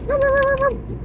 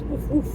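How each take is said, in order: First: High, loud yappy little-dog woofs; little dog barking. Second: Dog woof. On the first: Owner imitates a little dog for pet bird, high loud yapping. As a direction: yap like an excited small dog. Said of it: "A little dog goes". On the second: Owner shows pet bird what a dog says, simple dog woofs. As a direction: imitate an ordinary dog's woof. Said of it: "A dog says". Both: Shown as a demonstration.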